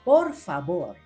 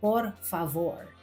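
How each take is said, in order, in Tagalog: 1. Ang gitnang katinig ay parang B. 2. Ang gitnang katinig ay parang V sa Ingles. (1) "ang letter V na Spanish ay pinopronounce na B" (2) "hindi por favor"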